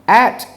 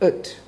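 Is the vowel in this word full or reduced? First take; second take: full; reduced. First: The word is said with a full vowel. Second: The word is said with a weak, reduced vowel.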